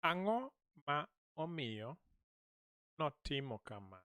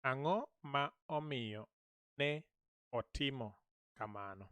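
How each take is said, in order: First: Notimo run together as one word; contracted notimo. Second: Ne and otimo said as two separate words; full form ne otimo, not notimo; uncontracted ne otimo. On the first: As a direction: say the clipped, contracted form notimo. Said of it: "This should be ne otimo because this is contracted". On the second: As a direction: give ne its own beat before otimo. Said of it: "I don't want us to contract them". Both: Shown as a demonstration.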